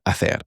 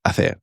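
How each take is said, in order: Both takes have the same delivery.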